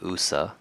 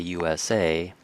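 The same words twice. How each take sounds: First: It is spoken as a single word. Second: It is spoken as separate letters. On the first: "you could probably say U S A, but I think it's safe to say that most people don't" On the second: "because we say U S A, it's technically an initialism"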